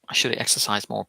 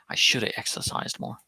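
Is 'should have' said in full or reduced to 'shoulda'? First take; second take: full; reduced. First: 'Should have' is said fully, with both words. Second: 'Should have' is reduced to 'shoulda'.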